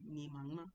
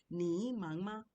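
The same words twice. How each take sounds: First: "ni mangma" run straight, with no dip on "ni"; straight-through tones. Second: "ni mangma" with "ni" dragged through a full dipping tone; wrong full third tone. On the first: Teacher showing you just go straight, straight-through tones. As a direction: say "ni mangma" in one smooth go, "ni" short. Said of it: "you just go straight". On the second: Teacher showing what you can't say, overdone third tone. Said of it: "you can't say ni mangma". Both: Shown as a demonstration.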